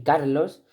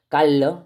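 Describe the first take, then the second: First: Said in the usual way. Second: "Carlos" sin s final, como "Callo"; aspiración andaluza. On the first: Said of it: "en vez de decir Carlos". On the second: Shown as a demonstration. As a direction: di "Carlos" comiéndote la r y la s: "Cal-lo". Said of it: "La aspiración de la S final o de la S intermedia". ("Carlos" a la andaluza, l larga y final abierto)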